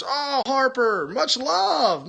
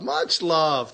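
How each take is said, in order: First: High, slow, sing-song "much love"; gushing thanks. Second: Said in the usual way. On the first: Real, not acted. Thanking Harper for the super hearts, high and gushing.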